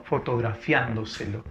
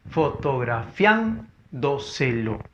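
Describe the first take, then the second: First: Said in the usual way. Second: Fotografiándoselo slowly split as fo-to-gra-FIÁN-do-se-lo; syllable by syllable. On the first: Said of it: "Siguiente palabra". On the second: Shown as a demonstration. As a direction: sound out fotografiándoselo with pauses, leaning on FIÁN. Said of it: "sería el silabente silabeo". (fotografiándoselo silabeado despacio, con fuerza en FIÁN)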